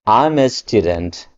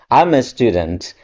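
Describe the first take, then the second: First: I am is joined into one quick syllable. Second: The same.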